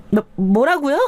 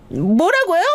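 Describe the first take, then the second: First: 말을 더듬으며 놀라 되묻는 아내 목소리; 당황해서 더듬기. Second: High, rising-pitched cry of disbelief; shocked. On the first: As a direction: stammer in higher-pitched disbelief as the flustered wife. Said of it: "아내는 당황해서 말을 더듬기 시작했습니다". (당황해서 높은 목소리로 말을 더듬음) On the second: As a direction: blurt it as the stunned wife, voice shooting up. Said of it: "아내는 너무 놀란 얼굴로". (깜짝 놀라 높게 되묻는 목소리) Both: A narrator's reading.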